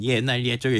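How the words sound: It is said in a flat, robot-like voice. "로봇 말투로 해줘"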